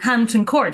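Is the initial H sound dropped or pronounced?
pronounced. The H at the start is clearly pronounced. "I mean Hampton Court"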